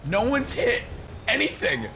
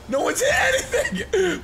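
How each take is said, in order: First: Said in the usual way. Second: Squeaky laughing mock. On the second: Mocking opponents who miss shots.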